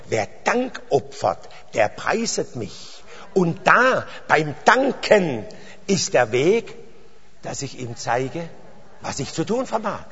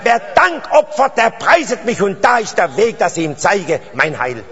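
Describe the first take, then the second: First: Verse recited slowly and deliberately; measured, unhurried scripture quote; slow recitation. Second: Verse proclaimed high and loud; emphatic repeat of scripture; forceful proclamation. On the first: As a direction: spell out the verse phrase by phrase, stretching the key words. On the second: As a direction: drive the verse home to the congregation, easing down at the end. Repeats verse forcefully after checking understanding. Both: Real, not acted.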